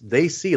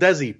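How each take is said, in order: First: The first syllable is said like 'day'. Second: The first syllable is not said like 'day'. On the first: The speaker calls it right. "it's they see, like saying they see" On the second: The speaker calls it wrong. "he jumped right back into saying it wrong"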